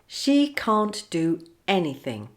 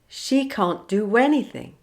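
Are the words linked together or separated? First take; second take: separated; linked. First: The words are said separately, without a linking w. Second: The words run together with a linking w. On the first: "without linking" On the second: "linking w"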